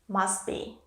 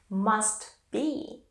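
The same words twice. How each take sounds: First: The T at the end of must is dropped. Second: The T at the end of must is kept.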